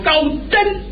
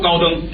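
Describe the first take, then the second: First: It is said in traditional opera stage pronunciation. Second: It is said in ordinary Mandarin pronunciation. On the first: The speaker calls it right. "得说高灯" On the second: The speaker calls it wrong. "高灯不能说高灯"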